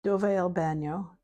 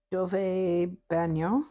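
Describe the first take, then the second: First: "Dove è il bagno?" said as a question with rising end; "Dove è il bagno?" asked lightly in Italian; Italian phrase. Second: "Dove è il bagno?" repeated slowly, "bagno" rising; "Dove è il bagno?" drawn out with the rise on "bagno"; slower Italian repeat. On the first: Showing viewers how to ask for the bathroom, a light Italian question. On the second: Repeating the bathroom question for viewers, slow and careful. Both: Shown as a demonstration. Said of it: "I know how to ask for the bathroom".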